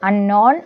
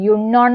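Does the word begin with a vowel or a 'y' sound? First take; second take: vowel; y sound. First: The word begins with a plain vowel sound. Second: The word begins with a 'y' sound. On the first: The speaker calls it right. "പകരം എന്താണ് അൺനോൺ" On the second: The speaker calls it wrong. "യുണ്ണോൺ എന്നല്ല വായിക്കുക"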